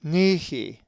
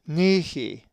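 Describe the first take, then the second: First: It is said with the Greek pronunciation. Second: The same.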